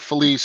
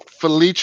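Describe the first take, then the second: First: The name is pronounced as it is spelled. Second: The name is pronounced the Italian way. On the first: "Looks like" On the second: "is the Italian pronunciation"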